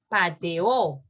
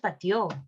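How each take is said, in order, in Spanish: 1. Las dos vocales se mantienen como sílabas separadas. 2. Las dos vocales se unen en una sola sílaba. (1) "Es pateó" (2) "Pero no es pateó"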